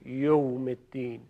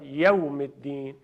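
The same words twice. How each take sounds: First: The vowel after the 'y' is not 'a'. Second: The vowel after the 'y' is a clear 'a'. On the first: The speaker calls it wrong. "پس ما باید دقت کنیم که اینطوری نگیم" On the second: The speaker calls it right. "حرف یا فتحه داره"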